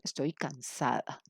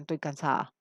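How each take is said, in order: First: "estoy cansada" slowly, every syllable kept; full written form. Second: "estoy cansada" reduced to "toy cansaa"; casual spoken form. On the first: Teacher showing the textbook form, "estoy cansada" fully pronounced and slow. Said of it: "Eso es el inglés escrito". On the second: Teacher showing what texts never print, "estoy cansada" slurred to "toy cansaa". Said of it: "en ninguna parte ustedes encuentran". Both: Shown as a demonstration.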